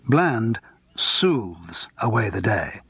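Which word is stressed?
soothes. The word soothes carries the stress.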